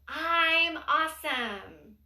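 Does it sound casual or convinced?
convinced. It is said with energy and real conviction.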